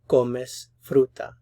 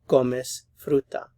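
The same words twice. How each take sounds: No difference in how they are said.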